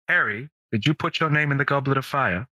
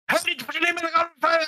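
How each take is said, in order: First: It is said slowly in a booming, angry voice. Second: It is said fast in a frantic, hurried voice.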